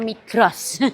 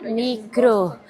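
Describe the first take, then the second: First: The name ends with a final s sound. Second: The name ends without a final s sound. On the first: This is how a Javanese speaker reads it. "Kalau aku yang bacanya Migros. Wong Jawa" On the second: This is how a local acquaintance reads it. "Kata Mbak Wiwi ini dibaca Migro"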